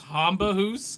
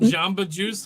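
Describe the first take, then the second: First: Both words begin with an H sound. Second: Both words begin with a J sound.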